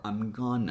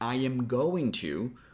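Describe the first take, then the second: First: Going to is squeezed into one short word. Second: Every word is said in full, unshortened.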